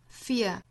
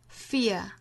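First: It is said in a British accent. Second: The same.

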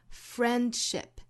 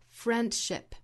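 First: The d sound in the middle is dropped. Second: The d sound in the middle is dropped.

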